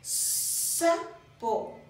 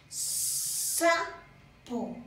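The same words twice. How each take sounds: First: "Sapo" breathed with no voice, hissing S; whispered Sapo. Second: "Sapo" with a long hissed S; a slow, drawn-out "Sapo"; stretched S. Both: Shown as a demonstration.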